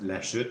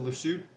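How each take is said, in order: First: The name is said with French pronunciation. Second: The name is said with English pronunciation. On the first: The speaker calls it right. "I know it's pronounced La Chute" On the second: The speaker calls it wrong. "I'm pronouncing it in English"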